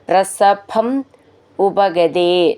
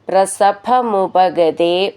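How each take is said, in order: First: The two words are said as separate words. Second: The two words are run together as one.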